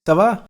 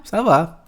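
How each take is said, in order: First: "ça va" asked with a rising end; high, louder "ça va", tipping up on "va"; questioning intonation. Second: "Ça va" as a statement, falling on "va"; high, louder "Ça va" that settles downward; answering intonation. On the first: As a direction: lift "va" into a question. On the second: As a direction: bring "va" down to answer. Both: Shown as a demonstration. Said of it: "Só vai mudar a entonação".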